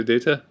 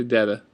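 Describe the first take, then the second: First: "data" with a long A, "day-ta"; others' pronunciation. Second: Said in the usual way. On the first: Shown as a demonstration. Vlogger showing how some say it, long A pronunciation. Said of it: "Some people say data". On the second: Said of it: "I say data".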